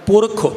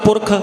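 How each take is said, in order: First: A short final u vowel is pronounced. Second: The short final vowel is dropped. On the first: "हुण मैं औंकड़ बोलांगा जो लिखिया है" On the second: "हुण मैं खखे वाला औंकड़ नहीं बोलांगा"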